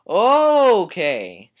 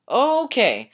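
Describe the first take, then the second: First: It is said with little excitement. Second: It is said with bursting excitement.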